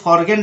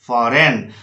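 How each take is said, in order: First: The g is sounded before the n. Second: The g is silent before the n. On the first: The speaker calls it wrong. "इसको फॉरगेन नहीं पढ़ना है" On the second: The speaker calls it right. "इसको फॉरेन पढ़ना है"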